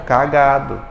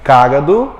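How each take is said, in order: First: Cagado stressed in the middle, as ca-GA-do; "Cagado" with the beat on GA. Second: Cágado stressed up front, as CÁ-ga-do; "Cágado" with a strong beat on CÁ. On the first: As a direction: hit the middle syllable of "Cagado". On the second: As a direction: punch the first syllable of "Cágado" loudly. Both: Shown as a demonstration. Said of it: "A mesma coisa que".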